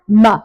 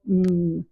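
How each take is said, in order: First: The sound is said in a hard way. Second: The sound is said softly as a pure sound. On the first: The speaker calls it wrong. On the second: The speaker calls it right.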